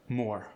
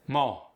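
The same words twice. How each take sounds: First: Said in the usual way. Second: "Mo" with no R at the end; Cajun mo. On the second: Shown as a demonstration. Coach showing relaxed Cajun R in "Mo". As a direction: say "Mo" relaxed, R gone. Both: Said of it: "It's just more relaxed".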